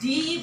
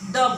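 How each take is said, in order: First: The word ends with a long 'ee' vowel. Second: The word ends with a short 'uh' vowel. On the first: "कभी डी बोला जाता है" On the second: "कभी द बोला जाता है"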